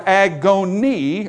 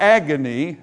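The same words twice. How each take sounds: First: Agony drawn out as "ag-OWN-ee", like Greek agon; Greek-style pronunciation. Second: Said in the usual way. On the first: Shown as a demonstration. Preacher showing the word's Greek root, agony said as "ag-OWN-ee". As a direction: say agony slowly, stretching agon inside it. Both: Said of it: "as we would say it".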